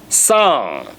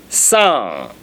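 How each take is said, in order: No difference in how they are said.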